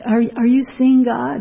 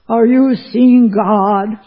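First: It is asked earnestly and sincerely. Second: It is asked loudly and boastfully. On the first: The asker genuinely wants to know. "very sincerely" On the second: The asker is proud and challenging. "in his loud voice, ... Like that"

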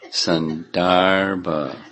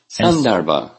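First: The second syllable is stressed. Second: The second syllable is not stressed.

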